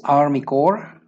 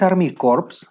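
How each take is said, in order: First: "Corps" pronounced "cor", p and s dropped; silent final letters. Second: "Corps" said as "corps" with audible p and s; wrongly sounded final letters. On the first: Teacher repeats the correct term, "Corps" ending on r. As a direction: slowly say "Corps" without its last two letters. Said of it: "no se pronuncian estas dos últimas letras". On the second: Teacher showing the mistake, "Corps" said like "corpse". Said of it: "Porque si dices Army Corps". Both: Shown as a demonstration.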